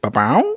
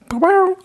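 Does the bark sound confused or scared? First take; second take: confused; scared. First: The bark sounds puzzled and confused. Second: The bark sounds scared and frightened. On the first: The dog is puzzled. "Here's one being confused" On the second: The dog is frightened. "that's Blue being a little scared"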